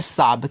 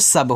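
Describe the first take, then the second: First: The vowel is long, like saab. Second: The vowel is short, like sub. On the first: The speaker calls it wrong. "साब कोई ऐसा शब्द होता है? नहीं होता है" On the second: The speaker calls it right. "ए को साइलेंट कर दिया करें"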